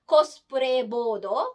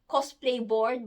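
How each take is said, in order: First: It is said with a Japanese pronunciation. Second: It is said with an English pronunciation.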